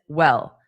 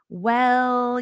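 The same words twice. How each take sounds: First: The word is said short and flat. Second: The word is drawn out, sounding questioning. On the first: The speaker calls it wrong. "you wouldn't just say it as well" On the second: The speaker calls it right. "more of a questioning. ... you might hold it out a little bit"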